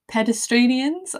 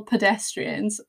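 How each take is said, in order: First: Pedestranians with an extra syllable, pe-des-TRAN-ians; childhood mispronunciation. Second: Said in the usual way. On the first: Retold or imitated. Mock mispronunciation, telling podcast listeners how she used to say pedestranians. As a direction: say pedestranians as a kid would, sure it's right. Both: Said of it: "used to call pedestrians".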